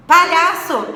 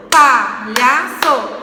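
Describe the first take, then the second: First: Said in the usual way. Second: "palhaço" slowly split, pa, lha, ço, each loud; syllable by syllable. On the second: Shown as a demonstration. Teacher counting syllables for pupils, "palhaço" in separate slow beats. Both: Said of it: "porque tem três sílabas".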